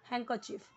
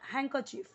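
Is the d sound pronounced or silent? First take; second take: Silent; Silent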